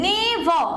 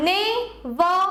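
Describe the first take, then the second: First: "never" with weight on "ne", falling away; first-syllable stress. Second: "Never" split in two, weight on "ver"; light "Ne", stronger "ver", ending on a rise in "Never"; second-syllable stress. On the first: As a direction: stress NE, lighter "ver" in "never". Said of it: "নেতে বেশি পড়ছে". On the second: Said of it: "ভরে হচ্ছে বেশি stress". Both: Shown as a demonstration.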